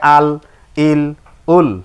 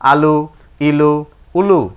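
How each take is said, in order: First: Each syllable ends with a bare consonant. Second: Each syllable ends with a short vowel. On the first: The reading stops here. "এটাই আর জি সাকিন" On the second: The reading continues without stopping. "না থামিলে যেমন আছে তেমন করে পড়তে হয়"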